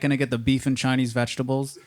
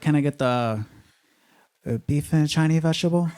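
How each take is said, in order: First: It is said in his own normal accent. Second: It is said in an imitated Chinese accent.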